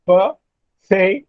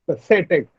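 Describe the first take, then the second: First: "pathetic" broken slowly into pa, the, tic; slow "pathetic" with a pause after each syllable. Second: "pathetic" run together, weight on "the"; stress on THE. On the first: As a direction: sound out "pathetic" in three separate beats. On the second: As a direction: say "pathetic" as one word, pa-THE-tic. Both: Shown as a demonstration. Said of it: "The stress is on say".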